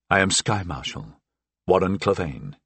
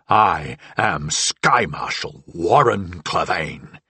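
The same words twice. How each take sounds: First: It is spoken in a flat, even intoning voice. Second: It is shouted with loud, raging intensity. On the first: The speaker calls it wrong. "I intoned the words she wished me to say" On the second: The speaker calls it right. "I raged"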